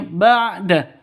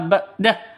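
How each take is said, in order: First: The middle consonant is a deep throat ain. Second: The middle consonant is a plain glottal stop. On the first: The speaker calls it right. "tapi ba'da ain" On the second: The speaker calls it wrong. "bukan dibaca ba'dah ... bukan ham, hamzah"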